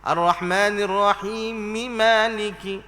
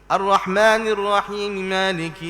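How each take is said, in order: First: The vowel after the m is fully sounded. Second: The vowel after the m is faint. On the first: The speaker calls it right. "Mi tu biar bunyi sungguh" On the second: The speaker calls it wrong. "Dia nak baca sambung tapi tak jelas mi tu"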